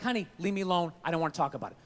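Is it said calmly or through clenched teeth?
calmly. It is said in a calm, relaxed voice.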